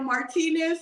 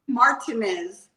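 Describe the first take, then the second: First: The surname has its native Mexican pronunciation. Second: The surname has a mangled anglicized pronunciation. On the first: This is how the name is really said. The speaker calls it right. "I had the Mexican last name" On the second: Others got the name wrong at the ceremony. The speaker calls it wrong. "they would screw it up"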